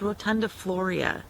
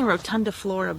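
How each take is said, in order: First: The word ends in floria, with an ee sound. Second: The word ends in flora, without an ee sound. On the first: The speaker calls it right. "but it's rotundifloria" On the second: The speaker calls it wrong. "I'm saying rotundiflora"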